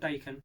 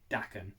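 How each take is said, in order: First: The first syllable sounds like 'die'. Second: The first syllable sounds like 'dah'. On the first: The speaker calls it wrong. "not Daikun" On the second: The speaker calls it right. "She confirmed it's pronounced Dakan"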